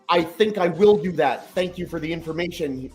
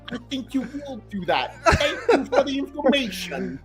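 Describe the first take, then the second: First: It is said in the speaker's plain voice. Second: It is said in a weird British accent.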